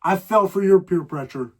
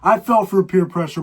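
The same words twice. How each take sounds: First: Your leaned on in "I fell for your peer pressure"; the your pressure of his mom, stressed. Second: Fell punched, louder; louder plain telling; first take, no stress on your. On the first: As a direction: put weight on the word your. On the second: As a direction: hit fell, not your. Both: Shown as a demonstration.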